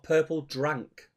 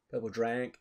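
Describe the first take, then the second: First: Said in the usual way. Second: DRANK with a stretched, twangy American-style vowel; imitated slang pronunciation. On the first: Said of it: "Is that what it's called?". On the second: Shown as a demonstration. Co-host querying how rappers say it, imitated slang pronunciation. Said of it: "they say it like that".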